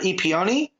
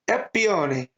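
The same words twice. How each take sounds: First: The name is said in a plain accent. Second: The name is said in an Italian accent. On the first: "I'm gonna struggle with this one" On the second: "Say it with an Italian accent"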